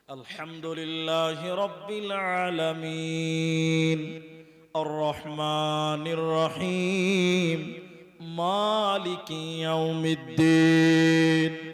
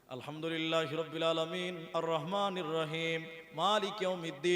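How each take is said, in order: First: It is recited slowly in broken chunks. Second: It is recited quickly without breaks.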